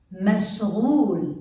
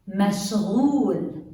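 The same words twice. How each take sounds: First: مشغول repeated with a French R gh; مشغول said again, gargled gh; Arabic pronunciation. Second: مشغول with a French R gh; مشغول said clearly, gargled gh; Arabic pronunciation. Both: Shown as a demonstration. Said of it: "like the French R".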